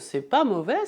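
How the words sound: It is said smiling, sounding pleased. The food is sincerely praised. "e diz sorrindo"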